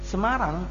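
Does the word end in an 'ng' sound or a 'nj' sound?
ng. The word ends in a plain 'ng' sound. This is the normal local pronunciation.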